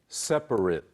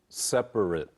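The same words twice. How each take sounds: First: The final syllable sounds like "it". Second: The final syllable sounds like "it".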